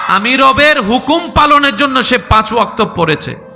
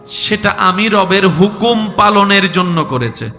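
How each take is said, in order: First: It is said more loudly. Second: It is said at normal loudness.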